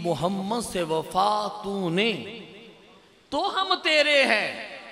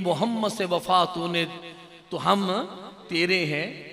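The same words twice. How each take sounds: First: It is recited slowly with pauses. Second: It is recited quickly without pauses.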